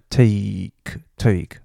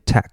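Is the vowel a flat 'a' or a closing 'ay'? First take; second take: closing ay; flat a. First: The vowel is a closing 'ay' sound. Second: The vowel is a flat open 'a'. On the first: The speaker calls it right. "那你要下巴收起来take OK" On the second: The speaker calls it wrong. "很多人会念tack"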